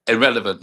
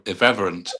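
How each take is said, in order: First: "Irrelevant" with an L in the third syllable; wrong word, irrelevant. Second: "irreverent" with V before the second R; corrected word, irreverent. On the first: Coach trying out the word he was given, "Irrelevant" with L. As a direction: say "Irrelevant" firmly, ending le-vant. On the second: Coach correcting the word to "irreverent", stressed on REV. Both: Shown as a demonstration. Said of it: "No, no, it's ir".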